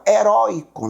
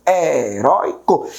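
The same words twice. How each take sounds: First: Said in the usual way. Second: "Heróico" slowly broken syllable by syllable; split into syllables. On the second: Shown as a demonstration. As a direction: stretch out each syllable of "Heróico", separately. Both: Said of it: "Como é que eu separo heróico?".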